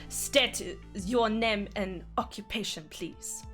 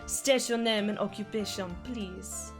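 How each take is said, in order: First: It is said in a harsh German accent. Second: It is said in a plain, soft accent. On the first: "Gotta be more harsh" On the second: "but like, not like that"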